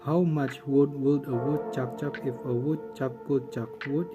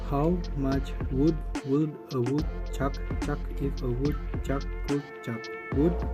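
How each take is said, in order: First: It is said at a normal pace. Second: It is said at a slow pace.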